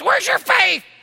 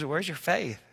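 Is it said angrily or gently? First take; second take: angrily; gently. First: It is shouted angrily. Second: It is said gently, with a smile.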